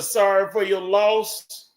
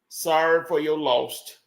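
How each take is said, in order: First: The last word ends without a t sound. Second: The last word ends with a t sound. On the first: The speaker calls it right. "Instead of" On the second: The speaker calls it wrong. "I'll say it wrong for you"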